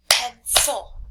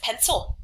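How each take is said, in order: First: "Pencil" split into pen and cil; syllable by syllable. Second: Said in the usual way. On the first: Shown as a demonstration. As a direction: say both chunks of "Pencil" separately. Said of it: "make sure you say the word". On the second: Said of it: "Now think about the word pencil".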